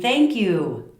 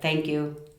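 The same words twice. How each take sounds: First: It is said warmly and expressively. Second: It is said flatly, like a robot.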